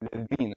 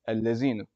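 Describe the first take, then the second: First: It begins with a voiced th sound. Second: It begins with a z sound. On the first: The speaker calls it right. "the correct way to do it is, is; this is a the and not a za" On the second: The speaker calls it wrong. "there's a lot of people that will say"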